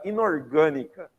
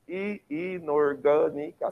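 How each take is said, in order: First: Said in the usual way. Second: "inorgânica" slowly split, i-nor-gâ-ni-ca; slow, evenly drawn-out beats on "inorgânica"; syllable by syllable. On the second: Shown as a demonstration. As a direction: sound out every syllable of "inorgânica". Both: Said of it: "cinco sílabas".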